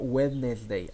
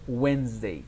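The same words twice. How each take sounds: First: The middle d sound is pronounced. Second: The middle d sound is left out. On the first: The speaker calls it wrong. "Do not say this word. It's not Wednesday" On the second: The speaker calls it right. "You say only Wednesday"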